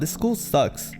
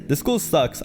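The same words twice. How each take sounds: First: It is said in a put-on girlish voice. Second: It is said in the speaker's natural voice. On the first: "Oh, I said it wrong" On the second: "I'm not gonna try and mimic a high school girl"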